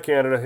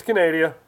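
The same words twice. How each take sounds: First: Said in the usual way. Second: Canada said as "kuh-NAY-dee-uh"; mock mispronunciation. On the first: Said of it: "Yes, it's Canada. It's not Canada". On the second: Shown as a demonstration. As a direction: stretch Canada to four syllables, stressing NAY. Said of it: "It's not Canada. It's Canada".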